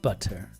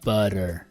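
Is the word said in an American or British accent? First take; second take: British; American. First: The t is a crisp, clear t. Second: The t is a soft d-like flap. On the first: "versus butter" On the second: "in America we have a D butter"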